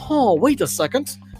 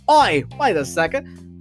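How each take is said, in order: First: It is said in the speaker's normal accent. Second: It is said in an Australian-sounding accent.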